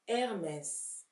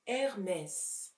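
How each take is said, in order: First: The word ends with an s sound. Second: The same.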